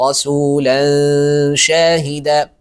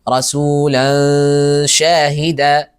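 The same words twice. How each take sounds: The two takes are said the same way.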